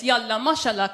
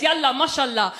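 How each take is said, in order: First: Farsi accent on "Yalla, mashallah"; Persian. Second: Arabic accent on "Yalla, mashallah"; demonstrating how Arabic sounds, firm and full-voiced. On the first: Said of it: "Persian, sounds like this". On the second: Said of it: "Arabic sounds like this". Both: Shown as a demonstration.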